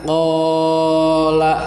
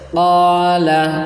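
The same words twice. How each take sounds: First: The long vowel is drawn out far too long. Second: The long vowel is held only briefly. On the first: The speaker calls it wrong. "itu terlalu panjang" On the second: The speaker calls it right. "hanya diayun saja"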